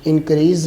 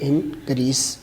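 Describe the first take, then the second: First: The word ends with a z sound. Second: The word ends with an s sound. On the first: The speaker calls it wrong. "इसके आखिर पे भी जे नहीं है" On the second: The speaker calls it right. "बल्कि इसके आखिर पर भी सीन है"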